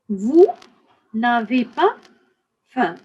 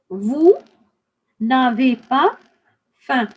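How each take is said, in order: Both takes have the same delivery.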